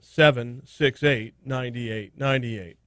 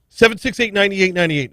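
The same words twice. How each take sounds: First: The number is read out slowly. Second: The number is read out quickly. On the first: "I'll do it again" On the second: "You said that fast"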